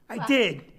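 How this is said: It sounds hesitant, as if holding something back. An objection is about to follow.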